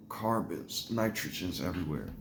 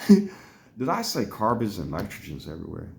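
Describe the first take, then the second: First: Soft retold waking-up voice; groggy waking mumble. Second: Slow self-questioning replay; retold puzzled realisation. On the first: Patient waking from a bronchoscopy, imitated groggy mumble. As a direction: say it quietly, as if just coming round. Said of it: "when I woke up". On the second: Patient questioning own words after coming to, retold puzzlement. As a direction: ask it slowly, in full voice, puzzling it out. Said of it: "when I came to and was really thinking".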